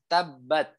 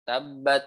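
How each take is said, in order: First: The final t is released with a puff of air. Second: The final t bounces with a small echoing release. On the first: The speaker calls it right. "Padahal yang benar adalah tabat. Tuh. Ketika sukun ya keluarnya adalah ada aliran udara" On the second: The speaker calls it wrong. "jangan sampai ketika sukun memantul"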